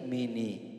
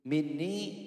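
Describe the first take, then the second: First: The n sound is short, single. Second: The n sound is held long, doubled.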